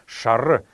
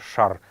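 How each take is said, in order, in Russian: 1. Слово заканчивается на краткий гласный. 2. Конечный гласный полностью опускается. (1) "Именно так оно произносится" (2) "в потоке речи часто можно услышать, как говорят просто шар"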